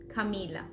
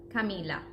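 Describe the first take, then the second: No difference in how they are said.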